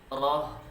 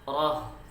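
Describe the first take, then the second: No difference in how they are said.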